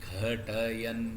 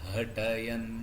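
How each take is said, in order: The two takes are said the same way.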